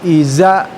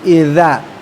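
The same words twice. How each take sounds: First: The middle consonant is a plain buzzing z. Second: The middle consonant is a voiced th, tongue between teeth. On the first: The speaker calls it wrong. "bukan iza" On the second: The speaker calls it right. "tapi iza"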